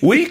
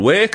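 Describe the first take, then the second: First: The vowel is a long 'ee' sound. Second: The vowel is an 'ay' sound, Irish style. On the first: Someone is being criticized. "Weak sounds like you're being critical" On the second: It is nobody's fault. "Wake sounds like maybe it's no one's fault"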